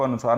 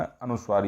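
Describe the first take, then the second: First: अनुसार with a plain s, no v sound after it; wrong reading अनुसार. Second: अनुस्वार with the sv cluster sounded before the long aa; correct reading अनुस्वार. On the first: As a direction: misread it as अनुसार, dropping the व. (अनुसार, बिना व की ध्वनि के) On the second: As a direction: say अनुस्वार, keeping the व after स. (अनुस्वार, स् के साथ व बोलते हुए) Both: Shown as a demonstration. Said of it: "इसको अनुसार नहीं पढ़ना".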